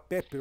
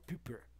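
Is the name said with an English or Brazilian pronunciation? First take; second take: Brazilian; English. First: The name is said with a Brazilian pronunciation. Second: The name is said with an English pronunciation. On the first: "Enquanto você fala Pepper" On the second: "eu tenho inglês puxado"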